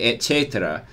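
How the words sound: It is pronounced in the classical Latin way. This is the proper Latin way. The speaker calls it right. "if I were teaching Latin and I wanted to say that, I would say"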